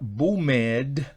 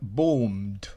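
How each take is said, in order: First: The ending is said as an extra syllable. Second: The ending is said as a plain d sound. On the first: The speaker calls it wrong. "no se pronuncia boomed" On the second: The speaker calls it right. "sino se pronuncia boomed"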